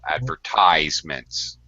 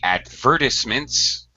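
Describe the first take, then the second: First: The stress is on the third syllable. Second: The stress is on the second syllable. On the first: "We stress the third syllable" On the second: "British say advertisements, um, and they stress the second syllable"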